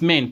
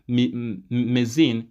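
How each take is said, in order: First: The word is said with one syllable. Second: The word is said with two syllables. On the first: The speaker calls it right. "It's main" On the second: The speaker calls it wrong. "I know most of you will pronounce it as mezine"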